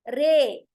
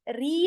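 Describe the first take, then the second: First: The vowel after the r leans toward 'ay'. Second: The vowel after the r is a pure 'ee'. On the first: The speaker calls it right. "इसको हम मज रेहा" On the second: The speaker calls it wrong. "री नहीं कहेंगे"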